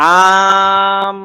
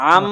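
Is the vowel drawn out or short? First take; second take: drawn out; short. First: The vowel is stretched out long. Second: The vowel is said quickly and short. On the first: The speaker calls it wrong. "আম এভাবে টান দেওয়া যাবে?" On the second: The speaker calls it right. "দ্রুত"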